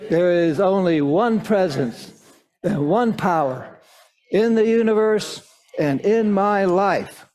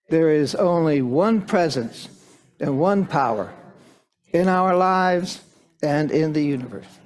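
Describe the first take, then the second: First: It is said with more vigor and energy. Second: It is said with ordinary, calmer energy.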